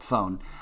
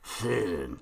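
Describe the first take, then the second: First: It is said plainly, like the English word phone. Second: It is said with a throaty, German-like sound. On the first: "I'm just going to pronounce it the way I like to say it" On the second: "it has to be said like you, you've got a German or a French accent or something"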